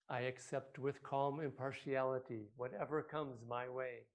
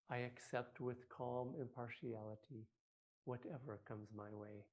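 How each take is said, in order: First: It is said loudly. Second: It is said quietly.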